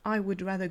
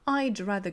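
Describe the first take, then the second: First: 'I would' is said as two separate syllables. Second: 'I would' is merged into one syllable.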